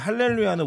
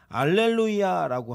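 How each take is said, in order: First: The word begins with an h sound. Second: The word begins without an h sound. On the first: This is the Hebrew pronunciation. "히브리어 발음이 원래 그렇고요" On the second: This is the Greek pronunciation. "헬라어로 발음하면"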